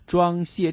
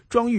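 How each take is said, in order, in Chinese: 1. 第二个音节读 xie。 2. 第二个音节读 yu。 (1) "其实应该是谢" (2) "我经常是会说，装玉啊"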